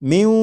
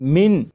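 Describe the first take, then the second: First: The n merges into a nasal w sound. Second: The final n is pronounced clearly. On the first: The speaker calls it right. "बल्कि इसे पढ़ेंगे म्यू" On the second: The speaker calls it wrong. "फिर ये मिन नहीं पढ़ा जाएगा"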